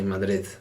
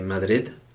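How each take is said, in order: First: The final D is soft, like th. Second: The final D is a hard stop. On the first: The speaker calls it right. "they say Madrid" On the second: The speaker calls it wrong. "people from Madrid don't say Madrid"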